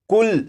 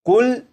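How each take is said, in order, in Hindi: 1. शब्द का अंत व्यंजन पर होता है, स्वर छोड़ दिया जाता है। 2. शब्द का अंत व्यंजन पर होता है, स्वर छोड़ दिया जाता है।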